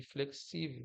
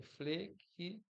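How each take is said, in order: First: Said in the usual way. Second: "flexível" devagar, com pausas entre as sílabas e tom mais alto; sílaba por sílaba. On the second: Shown as a demonstration. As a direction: separe "flexível" em fle-xí-vel, bem devagar. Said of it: "xi aqui é onde tá a sílaba tônica". ("flexível" silabado, devagar)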